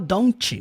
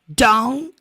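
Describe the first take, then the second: First: The final T sound is clearly released. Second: The final T sound is dropped. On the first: The speaker calls it wrong. "Você não fala don't" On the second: The speaker calls it right. "vai falar don't ever"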